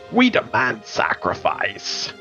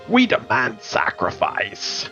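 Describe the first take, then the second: First: It is read in a put-on character voice. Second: The same.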